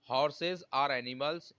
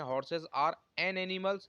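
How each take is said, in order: First: "Horses are animals" read word by word; correct example, dictated slowly. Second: "Horses are an animals" read word by word; wrong example, dictated slowly. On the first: Teacher dictates correct sentence to students, very slow. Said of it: "ये आपका बिल्कुल सही है". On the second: Teacher shows students the wrong sentence, very slow. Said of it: "ये हमारा गलत हो जाएगा". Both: Shown as a demonstration.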